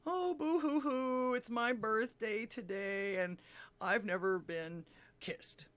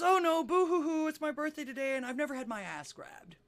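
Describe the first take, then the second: First: Slow, drawn-out boo-hoo wail, starting high; hammed-up weepy self-pity, dragging the words; mock crying. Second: High, loud boo-hoo wail, easing off; louder mock crying. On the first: Joke teller as lady crying on the beach, slow mock sobbing. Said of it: "she was crying on the beach". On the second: Joke teller as lady crying even louder, high mock wail. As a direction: bawl it out in hammed-up self-pity, pitched high. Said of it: "She starts to cry even louder".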